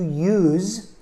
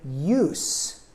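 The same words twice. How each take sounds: First: The final consonant is a buzzing z sound. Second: The final consonant is a hissing s sound. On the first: It is a verb. "S sounds like a Z" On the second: It is a noun. "S sounds like an S"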